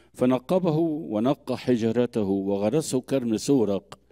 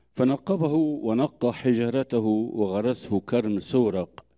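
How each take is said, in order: No difference in how they are said.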